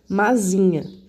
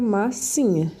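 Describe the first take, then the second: First: The middle consonant is a buzzing z sound. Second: The middle consonant is a hissing s sound. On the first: "se eu tivesse usado um S só aqui, fica mazinha" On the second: "Mas como usou S S, fica massinha"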